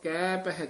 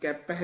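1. ਦੋਵੇਂ ਸ਼ਬਦ ਖਿੱਚ ਕੇ ਲੰਮੇ ਕੀਤੇ ਜਾਂਦੇ ਹਨ। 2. ਦੋਵੇਂ ਸ਼ਬਦ ਇਕੱਠੇ ਜੁੜ ਕੇ ਇੱਕ ਬਣ ਜਾਂਦੇ ਹਨ। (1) "ਲਮਕਾ ਕੇ ਉਚਾਰਨ ਕਰਨਾ" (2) "ਕੈਪਹਿ ਨਹੀਂ ਕਹਿਣਾ"

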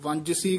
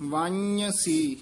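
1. बीच का व्यंजन 'j' की ध्वनि है। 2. बीच का व्यंजन 'y' की ध्वनि है। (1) "कई जेड़े ने वो वंजसी कह देंदे ने, जज्जा ला देंदे ने" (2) "यानी वन्यसी इस तरह उच्चारण करना"

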